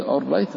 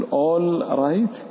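First: All right with the l merged into the r, like "orright". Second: All right with the l fully sounded before the r; clear l, wrong way. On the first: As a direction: drop the l of all right and double the r. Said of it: "برضو أدخل، أدغم اللام في الراء". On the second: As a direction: say all right with a distinct l, like a foreigner. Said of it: "وإياك أن تظهر فتقول all right". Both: Shown as a demonstration.

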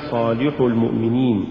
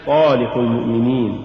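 First: صالح المؤمنين with too much stress on the lam; صالح المؤمنين, accent shifted onto لِ; overstressed lam. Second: Said in the usual way. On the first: Shown as a demonstration. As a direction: punch the لِ in صالح. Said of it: "تقرأ لحنا". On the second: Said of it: "والصواب صالح المؤمنين".

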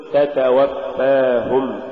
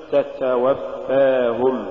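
First: Said in the usual way. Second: تتوفاهم with each ت leaking air, like "ts"; weak ta. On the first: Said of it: "قل". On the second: Shown as a demonstration. Teacher showing what not to say, leaky ta in تتوفاهم. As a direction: soften both opening ت sounds of تتوفاهم with breath. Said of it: "ولا تقل".

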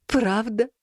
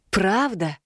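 First: Hopeful teary sniffle, rising; snotty crying. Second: Earnest, reassuring confirmation; firm and sincere, to comfort; sincere assurance. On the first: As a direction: ask through a runny nose. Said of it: "снова шмыгнул носом кот". (всхлипывая, с надеждой) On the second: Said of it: "Как можно искреннее заверила я". (искренне и уверенно) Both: A narrator's reading.

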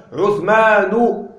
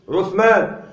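First: عثمان said slowly as "uthmaanu"; damma without tanween. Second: Said in the usual way. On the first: Shown as a demonstration. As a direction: stretch عثمان and end it on -nu. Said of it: "بدون تنوين". (عثمان بضمة ممدودة بدون تنوين) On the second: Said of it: "عثمان بدون تنوين".

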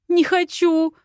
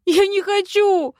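First: High, loud whiny "Не хочу"; whining. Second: Very high, loud wail "Я не хочу"; louder whine. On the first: Heroine whining at Viktor, refusing the task. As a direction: whimper like a child refusing. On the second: Heroine wailing her refusal, even higher and louder. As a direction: escalate into a full childish wail. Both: Acted. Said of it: "захныкала".

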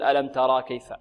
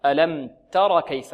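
First: ترى with a long final aa, as a mistake; ترى held long before كيف; wrongly lengthened alif. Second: تر cut short, no long final vowel; alif dropped. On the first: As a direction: demonstrate the error: stretch the end of ترى. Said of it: "لا نقول". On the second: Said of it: "حذفت منها الألف". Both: Shown as a demonstration.

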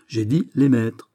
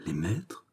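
First: "J'ai dit les maîtres" slow, firm, falling; "dit" stressed, slow falling statement; firm insistence. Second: "Les maîtres" as a hushed, rising question; "Les maîtres" soft, lifting sharply at the end; startled question. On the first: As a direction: repeat "les maîtres" slowly as a settled fact. Aramis insists, answering the question. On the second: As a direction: echo "Les maîtres" softly, in disbelief. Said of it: "s'écria Baisemeaux". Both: A narrator's reading.

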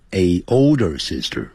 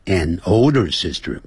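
First: Put-on "a older sister" with "a" said as "ay", no n; wrong article "a". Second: Put-on "an older sister" with "an" linking its n to the vowel; correct article "an". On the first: Teacher showing what not to say, wrong "a older sister". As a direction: say a bare "ay" before "older sister". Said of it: "不要念成". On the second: Teacher giving the correct form before a vowel, "an older sister". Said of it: "那前面就要加个an". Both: Shown as a demonstration.

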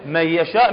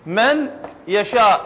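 First: من يشاء run together as مي يشاء, the ن dropped into a doubled ي; nun merged into ya. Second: من يشاء with the ن of من said clearly, each word apart; slow and deliberate, sound out the ن in من before يشاء; from the teacher: من يشاء read slowly, nun fully pronounced; separate, unmerged words. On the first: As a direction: assimilate the ن of من into the ي of يشاء. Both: Shown as a demonstration. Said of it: "شو راح تلفظها؟".

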